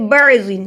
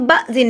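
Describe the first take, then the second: First: "بعضن" as ba'-din with a throat ain; clear ain. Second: "بعضن" as a plain "bazin", no throat sound; missing ain. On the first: Teacher correcting learners, "بعضن" with a clear ain. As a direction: join the b straight into the ain in "بعضن". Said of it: "ہم با کو عین سے ملا رہے ہیں". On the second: Teacher showing the mistake, "بعضن" without its ain. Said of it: "اسے ہم بعضن نہیں پڑھیں گے". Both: Shown as a demonstration.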